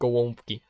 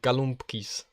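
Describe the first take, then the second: First: It is said with native Polish sounds, no added s. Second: It is said with anglicized sounds and an added s.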